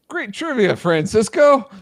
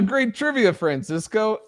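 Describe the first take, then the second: First: It is said in an ecstatic, overexcited way. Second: It is said in a calm, plain way.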